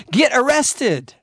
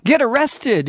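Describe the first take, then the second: First: "Get arrested" said slow, each word hammered. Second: Said in the usual way. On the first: Acted. Preacher repeating his call to the congregation, slow and hammered. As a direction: drag out "Get arrested" as a command.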